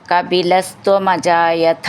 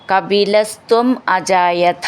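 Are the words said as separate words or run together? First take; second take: run together; separate. First: The two words are run together. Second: The two words are said separately.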